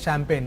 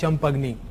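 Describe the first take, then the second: First: The word ends without any added vowel. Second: The word ends with an added 'ee' vowel. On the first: The speaker calls it right. "so that is champagne" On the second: The speaker calls it wrong. "one student who has pronounced champagne as champagni"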